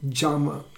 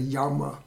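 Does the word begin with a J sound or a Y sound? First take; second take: J; Y. First: The word begins with a J sound. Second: The word begins with a Y sound. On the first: This is the original Sanskrit pronunciation. "has really a J sound. Even so, jama" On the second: This is the common English pronunciation. "instead of yama"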